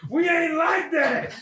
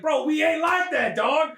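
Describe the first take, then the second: First: High, very slow shout; hammed-up drawn-out indignant yell; emphatic mock rebuff. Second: Slow, raised-pitch protest; comic indignant brush-off; mock rebuff. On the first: Repeats rebuff, bigger. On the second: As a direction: push someone away with a drawn-out objection. First take of repeated rebuff.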